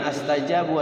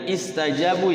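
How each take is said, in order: First: The word begins with an a vowel. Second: The word begins with an i vowel. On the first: The speaker calls it wrong. "jangan astajabu" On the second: The speaker calls it right. "kalau dimulai dari itu istajabu ya"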